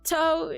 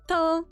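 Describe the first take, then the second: First: The t is sharp and strongly released. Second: The t is soft and lightly released. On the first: It sounds like a native English speaker. The speaker calls it wrong. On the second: It sounds like natural Japanese. The speaker calls it right.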